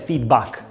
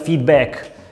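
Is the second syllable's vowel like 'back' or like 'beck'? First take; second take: back; beck. First: The second syllable has an open 'a' vowel. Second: The second syllable has a closer 'e' vowel. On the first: The speaker calls it right. "in inglese la pronuncia corretta è feedback, come Mac" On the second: The speaker calls it wrong. "non feedback"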